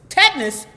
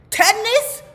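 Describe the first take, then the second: First: Louder, questioning repeat of the word Tetanus; weighing the shocking diagnosis; surprised question. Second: Tetanus jumping much higher, loud and rising; can't believe what she's hearing; stunned disbelief. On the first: Narrator echoing the doctor's diagnosis, loud and surprised. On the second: Narrator repeating the diagnosis again, squeaking with disbelief. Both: Retold or imitated.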